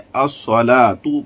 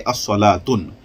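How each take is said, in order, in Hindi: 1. शब्द बिना 'न' के स्वर पर खत्म होता है। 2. शब्द के अंत में एक अतिरिक्त 'न' ध्वनि जुड़ी होती है। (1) "तो अब हमें अस्सलातु कहना है" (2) "ना कि अस्सलातुन"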